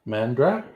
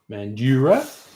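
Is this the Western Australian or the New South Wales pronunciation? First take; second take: Western Australian; New South Wales. First: It is said the way Western Australians say it. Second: It is said the way New South Wales locals say it. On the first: The speaker calls it right. "We're saying Mandra" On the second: The speaker calls it wrong. "I guess we called it Mandura"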